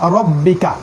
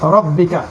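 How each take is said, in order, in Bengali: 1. r-এর পরে একটি গোলাকার 'o' স্বরধ্বনি আছে। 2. r-এর পরে একটি গোলাকার 'o' স্বরধ্বনি আছে।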